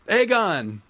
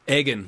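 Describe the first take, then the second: First: It ends with '-gon', rhyming with 'Sargon'. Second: It starts like 'egg' and ends like 'Egan'. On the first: The speaker calls it right. "like Sargon" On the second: The speaker calls it wrong. "like I'm egging cars"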